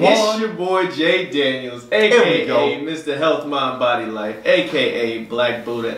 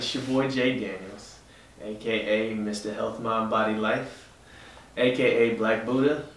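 First: It is said with high energy and enthusiasm. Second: It is said lightly, with low energy. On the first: The speaker calls it right. "That's how it should be from now on" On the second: The speaker calls it wrong. "I told y'all I'm keeping it light today"

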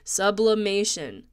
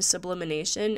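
First: The word has no extra 'in' syllable. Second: The word has an extra 'in' syllable. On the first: The speaker calls it right. "There we go" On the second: The speaker calls it wrong. "I keep saying sublimination"

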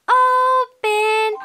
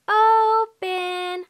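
First: The word is said at a very loud volume. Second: The word is said at a softer volume. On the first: The speaker calls it right. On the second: The speaker calls it wrong.

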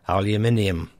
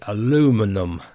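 First: The word is said with five syllables. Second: The word is said with four syllables. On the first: This is the British pronunciation. "In the UK, we say aluminium" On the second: This is the American pronunciation. "the American way is aluminum"

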